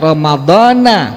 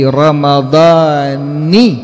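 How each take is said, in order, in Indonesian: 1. Huruf n di akhir diikuti vokal a. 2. Huruf n di akhir diikuti vokal i. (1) "itu salah. Tidak dibaca dengan ramadhana" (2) "nunnya dikasrahkan, nunnya tidak di fathah"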